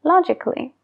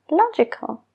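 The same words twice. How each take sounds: First: "Logically" said lo-jik-ly, no A; a dropped. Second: "logical" said lo-ji-kal, A spoken; a sounded. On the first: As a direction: drop the A in "Logically". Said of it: "Ya no se pronuncia esa A". ("Logically" sin la A) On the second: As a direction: keep the A in "logical". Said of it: "sí que se pronuncia la A". ("logical" con la A) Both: Shown as a demonstration.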